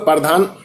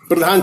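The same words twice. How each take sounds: First: An extra vowel breaks up the opening consonant cluster. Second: The opening consonants are said together, without an extra vowel. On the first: The speaker calls it wrong. "पांच हरफी है" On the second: The speaker calls it right. "चार हरफी"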